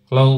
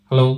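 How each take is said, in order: No difference in how they are said.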